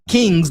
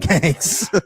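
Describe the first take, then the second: First: The vowel is a plain, standard 'ee' sound. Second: The vowel is broadened toward an 'ay' sound. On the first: "not the Kings" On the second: "Florida accent came through with the Kangs"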